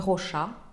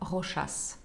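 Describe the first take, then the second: First: The name ends without an s sound. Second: The name ends with an s sound. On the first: The speaker calls it wrong. "Это не Rocha" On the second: The speaker calls it right. "читается со всеми буквами"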